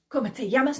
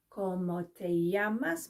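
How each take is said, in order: First: It is said fast. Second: It is said slowly.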